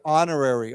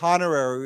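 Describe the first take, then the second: First: The word begins without any h sound. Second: The word begins with an audible h sound. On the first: The speaker calls it right. "we do not pronounce the H" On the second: The speaker calls it wrong. "We don't say honorary"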